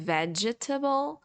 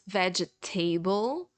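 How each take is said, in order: First: The middle e is sounded as a full vowel. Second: The ending is said like the word table. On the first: "instead of saying vegetable" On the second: "or even worse, vegetable, because you see the word table"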